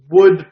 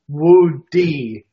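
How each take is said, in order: First: The word ends in a plain d sound. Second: The word ends with the letter name dee. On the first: The speaker calls it wrong. "Oh, I'm sorry" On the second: The speaker calls it right. "They want you to hit that D like it's the letter D"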